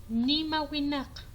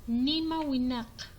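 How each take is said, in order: The two takes are said the same way.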